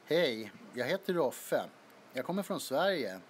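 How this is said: It is said with a Swedish accent.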